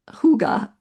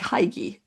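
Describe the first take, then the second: First: The word is said the Danish way. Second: The word is said with an anglicized reading. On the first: "what's pronounced hygge" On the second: "is what how I would pronounce it"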